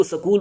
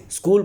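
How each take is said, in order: First: سکول without the opening vowel of اسکول; mispronounced اسکول. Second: Said in the usual way. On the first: Shown as a demonstration. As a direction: imitate students turning اسکول into سکول. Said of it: "اسکول کو سکول بولتے ہیں". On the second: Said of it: "کو سکول بولتے ہیں".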